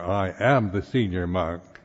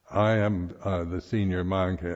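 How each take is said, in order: First: It is said in an assertive, self-important tone. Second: It is said in a plain, matter-of-fact tone. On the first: The speaker is asserting personal status. The speaker calls it wrong. "my personal uh, need to to establish myself as a as senior personality" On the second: It simply states a conventional fact. The speaker calls it right. "A matter of fact according to, you know, just the way it is"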